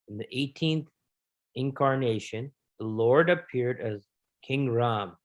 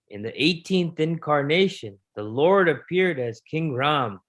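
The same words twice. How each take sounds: First: It is read in a normal voice. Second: It is read in a dramatic put-on voice.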